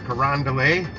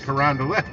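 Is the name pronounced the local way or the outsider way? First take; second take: outsider; local. First: It uses another outsider pronunciation of the name. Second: It uses the local pronunciation of the name. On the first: This is how people outside the city say it. The speaker calls it wrong. "or Carondelet" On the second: This is how people in the city say it. The speaker calls it right. "it's Carondelet"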